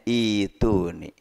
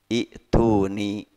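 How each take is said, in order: First: A lengthened vowel comes before the t. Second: A glottal stop comes before the t. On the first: "Dibacanya ituni" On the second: "maka hamzah menjadi ya"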